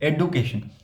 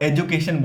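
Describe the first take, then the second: First: The middle consonant is a 'd' sound. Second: The middle consonant is a 'j' sound. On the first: The speaker calls it right. "इसको एडुकेशन बोलिए" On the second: The speaker calls it wrong. "लोग इसको एजुकेशन बोलते हैं"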